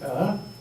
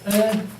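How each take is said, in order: First: The pitch rises from middle to high. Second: The pitch stays high and level. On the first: "the rising" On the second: "a high level"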